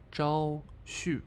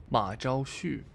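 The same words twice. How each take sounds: First: "Zhao Xu" with falling tones, judged wrong. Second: "Ma Zhao Xu" in corrected Mandarin tones, "Ma" stressed. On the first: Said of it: "Ah, no, completely wrong". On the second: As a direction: say "Ma Zhao Xu" carefully with the right tones. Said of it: "completely wrong". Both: Shown as a demonstration.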